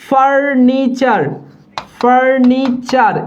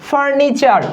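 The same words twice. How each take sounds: First: "furniture" drawn out in three slow syllables; teacher's slow, divided "furniture"; slow syllable demo. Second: Said in the usual way. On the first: Shown as a demonstration. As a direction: stretch each part of "furniture" as for dictation. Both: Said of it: "এই furniture বানানে মূর্ধন্য বসবে না".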